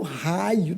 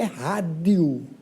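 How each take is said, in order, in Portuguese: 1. A palavra é dita sem o som de d. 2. A palavra é dita com o som de d. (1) "raio não é rádio" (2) "raio não é rádio"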